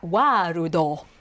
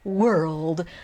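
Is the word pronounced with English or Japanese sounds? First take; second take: Japanese; English. First: It is said with Japanese sounds, three syllables. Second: It is said with English sounds, one syllable. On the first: The speaker calls it wrong. "this is the best they've got" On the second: The speaker calls it right. "he can pronounce world so well"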